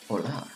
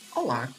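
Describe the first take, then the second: First: It is said seductively with a Spanish sound. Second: It is said plainly with a Portuguese sound. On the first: "In Spanish, you need to be more sexy" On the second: "Like in Portuguese, you just say"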